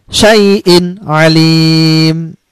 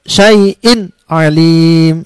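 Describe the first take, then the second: The two takes are said the same way.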